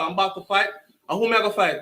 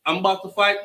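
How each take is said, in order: First: Put-on his younger self's Jamaican accent; thick Jamaican accent. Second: Said in the usual way. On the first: Boy learns he must fight, thick Jamaican accent. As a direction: Jamaican accent, said as a kid would. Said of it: "my Jamaican accent was thick as hell". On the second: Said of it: "my Jamaican accent was thick".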